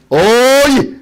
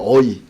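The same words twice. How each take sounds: First: Chungcheong dialect. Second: Said in the usual way. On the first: Shown as a demonstration. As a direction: stretch out the Chungcheong hail, raising the pitch. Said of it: "그 충청도 사투리예요". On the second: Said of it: "충청도는 어이예요".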